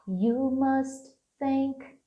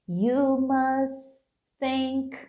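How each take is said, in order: First: The final T of must is pronounced. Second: The final T of must is dropped. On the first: "Ao invés de falar" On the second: "pegar esse primeiro T aqui e meio que omitir esse T"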